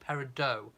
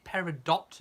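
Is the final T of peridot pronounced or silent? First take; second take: silent; pronounced. First: The final T sound is silent. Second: The final T sound is pronounced. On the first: "And no T" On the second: "Do you pronounce the T"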